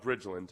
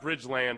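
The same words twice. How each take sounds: First: The last syllable sounds like 'lind'. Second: The last syllable sounds like 'land'. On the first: The speaker calls it right. "some version of Lend, Lend or Lind" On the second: The speaker calls it wrong. "not Bridgeland like Pearland"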